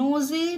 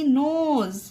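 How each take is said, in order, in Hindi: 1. इस शब्द के अंत में एक अतिरिक्त e स्वर है। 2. यह शब्द z की ध्वनि पर खत्म होता है।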